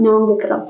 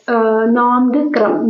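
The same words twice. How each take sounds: First: Said in the usual way. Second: നോങ്ക്രം drawn out slowly, each syllable given weight; slow drill. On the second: Shown as a demonstration. Teacher drilling a dance name for students to memorise, slow. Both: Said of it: "നോങ്ക്രം എന്ന് ഒന്ന് നിങ്ങൾ ഓർമ്മിച്ച് വെക്കോ".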